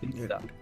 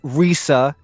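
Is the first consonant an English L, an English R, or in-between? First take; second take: in-between; English R. First: It starts with a sound between L and R. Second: It starts with an English R sound. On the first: The speaker calls it right. "the Japanese R is between the English L and the English R" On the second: The speaker calls it wrong. "it's not Risa"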